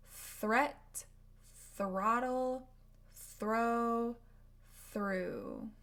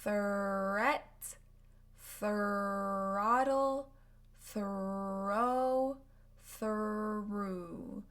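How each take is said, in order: First: Threat, throttle, Throw, through said briskly; quicker model words. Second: Threat, throttle, throw, through said slow and drawn out; slow model words. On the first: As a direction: run through the TH R words faster. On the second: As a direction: stretch each TH R word. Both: Shown as a demonstration. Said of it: "words you can practice".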